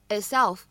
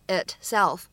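First: The t is unreleased and barely heard. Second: The t is clearly released and heard. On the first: The speaker calls it right. "我们呢直接把这个t 只做口型呢，并没有清晰读出来就可以了" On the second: The speaker calls it wrong. "这个单词你不需要读成itself"

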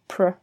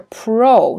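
First: The vowel is reduced to a weak 'er' sound. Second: The vowel is a full, clear 'o' sound. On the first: The speaker calls it right. "它会读PER" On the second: The speaker calls it wrong. "大家会觉得它是PRO"

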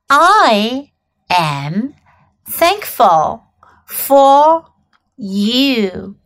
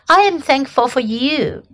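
First: It is said slowly. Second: It is said at normal speed.

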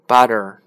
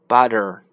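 No difference in how they are said.

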